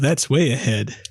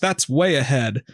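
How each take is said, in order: First: It is said in an imitated, put-on voice. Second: It is said in the speaker's normal voice.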